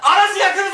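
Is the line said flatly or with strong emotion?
strong emotion. It is said with strong emotion.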